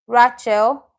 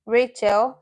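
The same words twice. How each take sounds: First: Rachel with an "ah", as RAH-chel; mispronounced name. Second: Said in the usual way. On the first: Real, not acted. Teacher misreading a student's name, Rachel mispronounced as RAH-chel. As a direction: say Rachel wrongly, first vowel as in "father".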